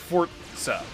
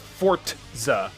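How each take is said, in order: First: A brief glottal stop comes before the z. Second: A clear t sound comes before the z. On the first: The speaker calls it right. "You just kind of stop your pronunciation before you say z" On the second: The speaker calls it wrong. "It's not necessarily a t. It's not a Forza"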